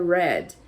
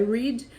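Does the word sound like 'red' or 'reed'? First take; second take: red; reed. First: The vowel is short, like red. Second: The vowel is long, like reed. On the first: It is the past tense. "no passado ele fica com a pronúncia da cor vermelho" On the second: It is the present tense. "no presente ele é read"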